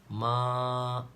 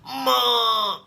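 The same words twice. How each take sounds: First: It is said softly and gently. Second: It is said sharply and angrily.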